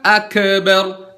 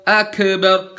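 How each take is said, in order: First: "akbar" dengan kaf dipantulkan seperti qalqalah; kaf memantul salah. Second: "akbar" dengan kaf ditempel tanpa pantulan. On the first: ("akbar" kaf memantul) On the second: ("akbar" kaf tanpa pantul) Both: Shown as a demonstration. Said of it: "bukan akbar".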